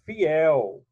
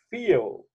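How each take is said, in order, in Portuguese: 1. As vogais se separam em duas sílabas. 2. As vogais se juntam em uma sílaba. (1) "é fiel" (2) "Ninguém vai dizer que é feel"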